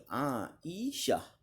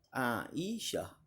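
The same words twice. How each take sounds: First: The name is said with Arabic pronunciation. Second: The name is said with Arabic pronunciation.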